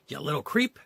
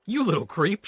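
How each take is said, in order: First: A milder reread of the yell; lightly raised, angry; thief's insult, less force; shouted. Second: Loud, higher angry yell; shouted. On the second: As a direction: bark it at the kid. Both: Acted. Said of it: "shouted the thief".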